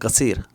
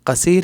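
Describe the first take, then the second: First: The word begins with a G sound. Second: The word begins with a K sound. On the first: "ग ग कुछ लोग बोलते हैं" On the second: "कुछ लोग क"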